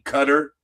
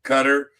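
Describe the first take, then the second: First: The name sounds like the word cutter. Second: The name sounds like the word cutter.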